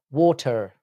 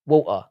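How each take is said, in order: First: Water with a British aw, waw-tuh; Water with a rounded British aw. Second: Water with a flapped d, wadder; Water as American wadder. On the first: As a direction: say Water the London way. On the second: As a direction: say Water the American way, wah-der. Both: Shown as a demonstration. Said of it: "how we say water".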